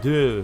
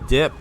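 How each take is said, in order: First: The word is mumbled without a final P sound. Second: The word ends with a clearly released P sound. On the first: The speaker calls it wrong. "he was just like, duh" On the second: The speaker calls it right. "Could I hear the P sound in that word, please?"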